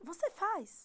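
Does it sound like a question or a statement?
question. It is said with question intonation. It asks whether the listener does it. "podemos transformar qualquer afirmação em pergunta apenas com a entonação"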